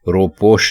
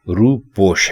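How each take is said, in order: First: The first vowel is a short 'o' sound. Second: The first vowel is a long 'oo' sound. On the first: The speaker calls it wrong. "रोपोश बिल्कुल बेमानी है" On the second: The speaker calls it right. "रे के ऊपर पेश लगाएंगे और रूपोश कर देंगे"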